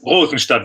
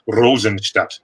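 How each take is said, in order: First: The R sound is not rolled. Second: The R sound is strongly rolled. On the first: "the standard German German way to say it" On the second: "if you really want to do Bavarian, ... then we're going to roll the R"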